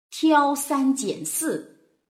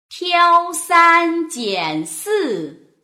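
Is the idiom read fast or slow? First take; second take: fast; slow. First: It is read faster with expressive feeling. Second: It is read slowly with very clear articulation.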